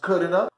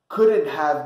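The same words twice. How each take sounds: First: Have is reduced to a short uh sound. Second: The word have is said in full.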